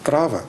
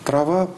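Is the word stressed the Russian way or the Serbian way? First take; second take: Serbian; Russian. First: The word carries the Serbian stress placement. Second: The word carries the Russian stress placement. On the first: "по-сербски" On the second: "по-русски"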